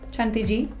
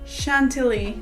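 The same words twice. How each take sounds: First: The word is pronounced with Spanish sounds. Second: The word is pronounced with English sounds. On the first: "Chantilly in Spanish" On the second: "How do you pronounce that in English?"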